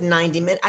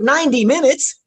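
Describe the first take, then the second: First: Said in the usual way. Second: High, loud incredulous question; shocked disbelief. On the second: Retold or imitated. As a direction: echo it back, aghast and loud. Own shocked echo of it.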